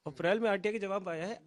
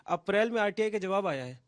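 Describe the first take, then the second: No difference in how they are said.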